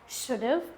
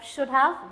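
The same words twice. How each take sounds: First: The word have is reduced and contracted. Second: The word have is said in full.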